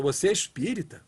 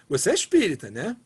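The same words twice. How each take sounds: First: Doubtful, reproachful asking; disapproving question. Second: Warm, impressed asking; admiring question. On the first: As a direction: ask it as if shocked by bad conduct. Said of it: "É a mesma pergunta". (pergunta desconfiada, em tom de reprovação) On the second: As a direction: ask it as praise for a good example. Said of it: "a mesma pergunta com entonações diferentes". (pergunta admirada, em tom de elogio) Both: Shown as a demonstration.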